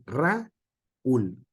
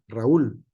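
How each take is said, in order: First: "Raúl" broken slowly into Ra... úl; separado en sílabas. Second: "Raúl" said as one run-together syllable; todo junto. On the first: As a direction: split "Raúl" in two, pausing before úl. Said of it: "no se puede pronunciar ... por sílabas". ("Raúl" lento, dividido en Ra - úl) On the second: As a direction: say "Raúl" joined up, no break between a and u. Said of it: "por sílabas toda junta". ("Raúl" pronunciado todo junto) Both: Shown as a demonstration.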